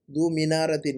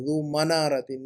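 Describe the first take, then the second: First: मीनारतिन with an "ee/i" vowel after m; wrong vowel example. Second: मनारतिन with short "a" after m; corrected vowel. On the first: Teacher quotes student's mistake, मीनारतिन said with "mi". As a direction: say मीनारतिन starting "mi", the Urdu way. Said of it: "अरबी में मनारा कहते हैं ना". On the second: Teacher corrects student's Arabic, मनारतिन said with "ma". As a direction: say मनारतिन starting "ma", not "mi". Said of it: "मीम पर ज़बर लगाइएगा". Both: Shown as a demonstration.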